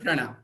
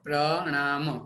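First: The word is said smoothly in one piece. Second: The word is broken apart into separate syllables. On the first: "ભેગો બોલશું આપણે" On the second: "હું એટલે માટે છૂટો પાડું છું, તમને સમજાય"

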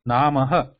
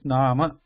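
First: The word ends with an added breathy 'ha' sound. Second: The word ends plainly without an added sound. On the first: The speaker calls it wrong. "it is not Namaha" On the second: The speaker calls it right. "It is just Nama. There is no Visarga"

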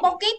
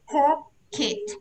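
First: The first consonant sounds fully voiced. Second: The first consonant comes out with a puff of breath. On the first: The speaker calls it wrong. "pocket là ra âm hết rồi" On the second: The speaker calls it right. "đọc này pocket"

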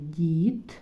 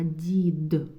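First: The final consonant is weakened and unclear. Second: The final consonant is pronounced clearly and fully. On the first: The speaker calls it wrong. "Кажемо не дід" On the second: The speaker calls it right. "Чітко вимовляємо останній звук в кінці цього слова"

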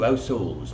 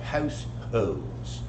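First: The word starts without an h sound. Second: The word starts with a clear h sound. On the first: "H's that are dropped routinely" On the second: "not households"

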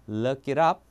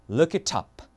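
First: The t is softened into a flap sound. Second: The t is pronounced fully and crisply. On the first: "미국 영어로는요. 저 T 발음을 다시 한번 리을처럼 약간 약화시킨 다음에" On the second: "영국은 어떻게 해요? ... 그대로 갑니다"

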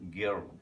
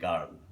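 First: The vowel sounds like a central 'er'. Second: The vowel sounds like an open 'ah'. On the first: The speaker calls it right. "আমাকে বলতে হবে গার্ল" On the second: The speaker calls it wrong. "আমরা হয়তো বাংলাদেশিরা বিশেষ করে বলে ফেলি গার্ল, হুইচ ইজ রং"

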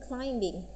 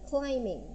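First: A b sound is heard before the ending. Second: No b sound is heard before the ending. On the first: The speaker calls it wrong. "di ucapannya bukan climbing, bingnya tidak dibaca" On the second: The speaker calls it right. "jadi di ucapannya adalah climbing gitu"

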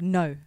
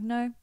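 First: It is said harshly and sharply. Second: It is said calmly and unbothered.

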